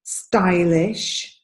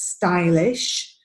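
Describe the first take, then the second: First: The stressed vowel sounds like 'eye'. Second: The same.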